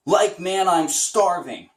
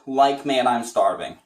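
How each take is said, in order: First: First step up toward Shaggy, drawn out; a bit higher than normal; slightly higher, slower. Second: Said in the usual way. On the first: Shown as a demonstration. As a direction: nudge the pitch up a little. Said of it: "see how high your voice can go". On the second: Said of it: "So this is my normal range".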